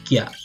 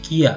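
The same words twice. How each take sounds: First: It is said as one gliding syllable, kya. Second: It is said as two syllables, ki-a. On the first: The speaker calls it right. "tapi kia" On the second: The speaker calls it wrong. "Bukan kia"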